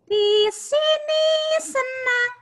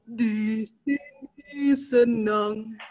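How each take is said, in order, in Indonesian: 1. Diucapkan dengan suara yang sangat tinggi. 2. Diucapkan dengan suara yang sangat rendah. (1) "kita bisa gunakan teknik suara paling tinggi" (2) "maka kita bisa gunakan suara paling rendah kita"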